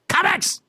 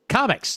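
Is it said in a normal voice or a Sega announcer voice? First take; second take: Sega announcer; normal. First: It is said in a Sega announcer voice. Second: It is said in a plain, normal voice.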